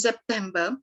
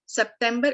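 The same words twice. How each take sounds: First: September said "zep-TEM-ba"; German pronunciation. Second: Said in the usual way. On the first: Shown as a demonstration. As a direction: say September in German, z at the start, "a" at the end. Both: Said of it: "month's name in German".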